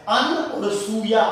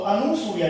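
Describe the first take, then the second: First: अन और सूया in separate parts, no 'u' after the n; split correction. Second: अनुसूया run together as a-nu-suya; mispronunciation demo. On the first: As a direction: break it as अन और सूया. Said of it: "ऊ की मात्रा नहीं आएगी". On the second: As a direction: say अनुसूया with a 'u' after the n. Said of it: "ये अशुद्ध है". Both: Shown as a demonstration.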